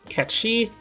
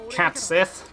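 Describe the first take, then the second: First: The name ends with a 'shee' sound. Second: The name ends with a 'sith' sound. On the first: The speaker calls it right. "it's Ketshi" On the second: The speaker calls it wrong. "not Katsith"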